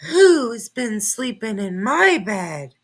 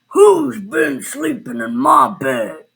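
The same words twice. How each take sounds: First: It is gasped in a Mommy Bear voice. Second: It is growled in a deep Daddy Bear voice.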